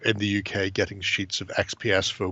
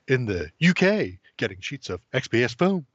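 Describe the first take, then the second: First: It is read plainly with no special emphasis. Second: 'UK' and 'XPS' are strongly emphasized, dramatically.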